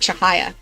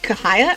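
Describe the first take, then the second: First: The name begins with a softer CH sound. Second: The name begins with a hard K sound. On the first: "sounds much like smoother, cleaner" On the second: "It is spelt like Kahaya, like K at the front"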